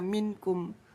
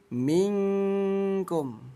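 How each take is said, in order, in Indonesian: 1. Bunyi n-nya dibaca penuh dan jelas. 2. Bunyi n-nya dibaca samar menjadi bunyi ng. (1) "nggak boleh dibaca minkum, nggak boleh diidharkan" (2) "dirubah menjadi bunyi eng"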